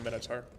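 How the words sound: The word is said with an American accent. "I speak American English though"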